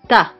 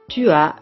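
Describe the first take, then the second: First: The u vowel of tu is dropped. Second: The u vowel of tu is fully pronounced.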